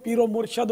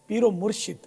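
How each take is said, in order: First: The second vowel of murshid is an 'a' sound. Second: The second vowel of murshid is an 'i' sound. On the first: It names the one who is guided. The speaker calls it wrong. "पीरो मुर्शद बोलते हैं तो गलत है" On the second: It names the one who gives guidance. The speaker calls it right. "ये लफ्ज़ सैयद या के नीचे ज़ेर है"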